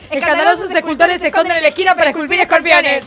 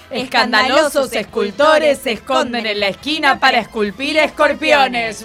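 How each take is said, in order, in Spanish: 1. La oración se dice a un ritmo rápido. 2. La oración se dice a un ritmo moderado. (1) "más rápido" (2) "digámoslo una vez de corrido, no tan rápido"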